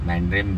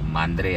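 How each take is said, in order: First: The name ends with a final m sound. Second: The name ends in a vowel, without final m. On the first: This is the name used outside Marathi. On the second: This is what the place is called in Marathi.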